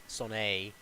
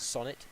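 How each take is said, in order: First: Sonnet with a silent T, "son-AY"; mock-French pronunciation. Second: Said in the usual way. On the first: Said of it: "'cause it's French". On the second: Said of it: "you pronounce".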